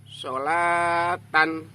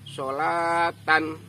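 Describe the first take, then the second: The two takes are said the same way.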